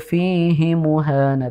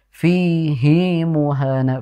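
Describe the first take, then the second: First: The vowels in fihi are short. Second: The vowels in fihi are long. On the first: The speaker calls it wrong. "Tidak dibaca dengan" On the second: The speaker calls it right. "Fi-nya panjang, hi-nya juga panjang"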